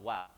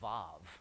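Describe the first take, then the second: First: The word begins with a W sound. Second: The word begins with a V sound. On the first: "Christians say there is a W, so they call it an interclausal wow"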